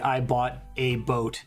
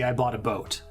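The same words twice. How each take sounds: First: The article 'a' has a full 'ay' vowel. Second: The article 'a' is reduced to a schwa. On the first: The speaker calls it wrong. "You don't say" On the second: The speaker calls it right. "And you pronounce it like a schwa sound"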